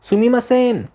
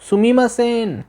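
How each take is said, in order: Both takes have the same delivery.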